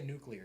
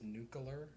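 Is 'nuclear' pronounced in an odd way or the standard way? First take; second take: standard; odd. First: The word is pronounced in the ordinary standard way. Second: The word is pronounced in an odd, unusual way. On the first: "He doesn't say nuclear" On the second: "He says nuclear or whatever"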